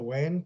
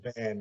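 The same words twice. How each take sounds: First: The word begins with a W sound. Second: The word begins with a V sound. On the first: The speaker calls it wrong. "a V, we pronounce it with a W" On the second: The speaker calls it right. "Instead of saying van"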